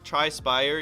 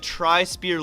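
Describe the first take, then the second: First: The second part rhymes with fire. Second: The second part rhymes with ear. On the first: The speaker calls it right. "it's Spire. Um, not Spear" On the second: The speaker calls it wrong. "I think I'm saying it wrong"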